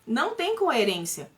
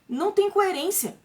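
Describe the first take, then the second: First: Said in the usual way. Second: "Não tem coerência" mais agudo e lento, com peso em "tem"; ênfase indignada. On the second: Real, not acted. (afirmar com força que "Não tem coerência")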